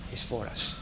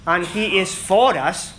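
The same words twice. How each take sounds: First: Breathed out softly, almost voiceless; whispered to the congregation. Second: Slow and louder, leaning on "for"; preacher repeats it with weight on "for"; emphatic repeat. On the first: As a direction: let it fall to a hush. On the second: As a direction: hammer home "for", slow and strong. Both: Shown as a demonstration.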